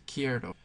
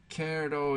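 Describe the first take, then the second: First: Quiero with the ie glide, "KYEH-ro"; correct Spanish form. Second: Quiero without the stem change, as "KEH-ro"; wrong Spanish form. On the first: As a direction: say quiero with a stressed ie in the stem. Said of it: "It's quiero". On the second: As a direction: say quiero with a plain e, no i-glide. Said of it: "is not how you say". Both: Shown as a demonstration.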